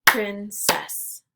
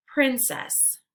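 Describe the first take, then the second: First: "Princess" as two separate beats, Prin – cess; syllables split apart. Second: Said in the usual way. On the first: Shown as a demonstration. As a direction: say "Princess" syllable by syllable, pausing between. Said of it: "break it into the syllables". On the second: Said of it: "repeat the word".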